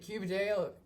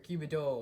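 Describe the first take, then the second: First: The last syllable rhymes with 'ale'. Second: The last syllable sounds like 'ol'. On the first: "like ale"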